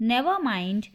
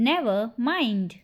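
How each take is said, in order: First: Said in the usual way. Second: "Never mind" slowed, words set apart. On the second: Shown as a demonstration. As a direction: separate "Never" from "mind" for learners. Slower repeat for learners. ("Never mind" धीरे, शब्द अलग-अलग)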